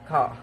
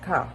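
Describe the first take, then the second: First: It is said in an Australian accent. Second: It is said in a British accent. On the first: "In Australian" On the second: "in British, we could uh, pronounce it as ka"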